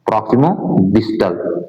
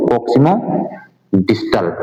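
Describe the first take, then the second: First: proximo distal said slowly, each word spelled out; drawn-out, careful term for students to copy; slow clear repeat. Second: Said in the usual way. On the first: Shown as a demonstration. Teacher repeating the English term slowly so students catch it. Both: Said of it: "इसको अंग्रेजी में क्या बोलो".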